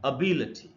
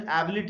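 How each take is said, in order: First: The word begins with a weak 'uh' vowel. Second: The word begins with a clear 'eh' vowel. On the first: The speaker calls it right. "Correct pronunciation वो है अबी लठी, ऐसे पढ़ना है" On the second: The speaker calls it wrong. "इसको हम लोग अक्सर एबिलिटी वगैरह ऐसे पढ़ लेते हैं"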